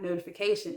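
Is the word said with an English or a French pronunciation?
English. It is said with an English pronunciation. The speaker calls it wrong. "I just want to say notification, but it's not notification"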